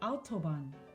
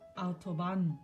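First: The stress is on the first syllable. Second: The stress is on the last syllable. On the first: The speaker's native language is German. "강세가 앞에 있잖아요" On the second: The speaker's native language is Spanish. "스페인어는 보통 강세가 마지막 음절에 가는데"

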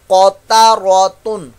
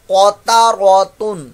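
No difference in how they are said.

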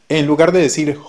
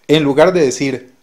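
No difference in how they are said.

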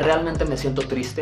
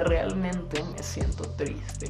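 First: It is said plainly, without emotion. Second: It is said with audible sadness. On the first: The speaker calls it wrong. "no es lo mismo que yo te diga" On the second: The speaker calls it right. "Y solo de decirlo lo empiezo a evocar"

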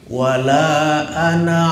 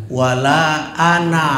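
No difference in how they are said.

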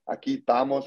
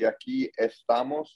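First: The first syllable of estamos is dropped. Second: The first syllable of estamos is fully pronounced. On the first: "I cut out the ES, more slang" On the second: "The correct way to say it would be aquí estamos"

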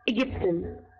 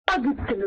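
First: The first vowel is an 'eh' sound. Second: The first vowel is an open 'ah' sound. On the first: The speaker calls it right. "حطيت عليه أملاوت بقيت إجبتن" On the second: The speaker calls it wrong. "ما قلتش أجبتن"

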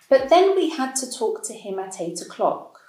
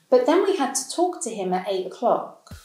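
First: Each word is said separately without linking or reduction. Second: The words are linked together with reduced sounds.

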